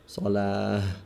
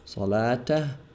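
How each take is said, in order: First: The ending is pronounced with an h sound. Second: The ending is pronounced with a t sound. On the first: The speaker pauses on the word. "pronounced as a ha if we stop on it" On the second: The word continues into the next word. "a ta if we continue"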